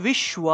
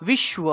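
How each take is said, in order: Both takes have the same delivery.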